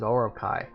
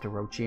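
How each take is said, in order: First: The name is said with a k sound. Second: The name is said with a ch sound. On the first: The speaker calls it wrong. "I always thought it was Orokai. Because I'm rubbish" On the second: The speaker calls it right. "I didn't even know it was pronounced Orochi until a friend corrected me on it"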